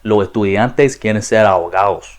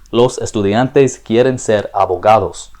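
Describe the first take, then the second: First: It is said in casual, dialect pronunciation. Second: It is said in standard, formal pronunciation. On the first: "using the three aspects I mentioned, it would sound a lot more like" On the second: "an example of the standard form of Spanish"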